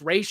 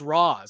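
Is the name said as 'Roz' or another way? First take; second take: another way; Roz. First: The name is not pronounced like 'Roz'. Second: The name is pronounced like 'Roz'. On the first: The speaker calls it right. "no, it's Ra's al Ghul" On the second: The speaker calls it wrong. "people nowadays it's it's Roz"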